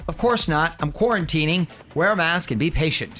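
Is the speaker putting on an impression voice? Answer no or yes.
no. It is said without a convincing celebrity impression. "that doesn't sound like [name] to me"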